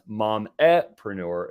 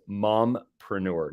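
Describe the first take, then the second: First: It is said with an extra vowel after 'mom'. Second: It is said with no vowel after 'mom'. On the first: The speaker calls it wrong. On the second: The speaker calls it right. "I'm going to try to pronounce this correctly"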